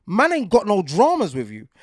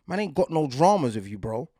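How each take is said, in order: First: Louder, higher, leaning on dramas; mean it, no backing down on dramas; firm and emphatic. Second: Said in the usual way. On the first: Real, not acted. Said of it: "Man's just saying, in real life". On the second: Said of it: "just say".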